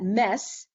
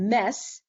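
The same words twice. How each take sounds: First: The name is pronounced the French way. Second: The same.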